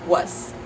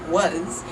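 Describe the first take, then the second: First: The word ends with a voiceless S sound. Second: The word ends with a voiced Z sound. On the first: "if you devoice the Z sound" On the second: "in English we pronounce that with a Z"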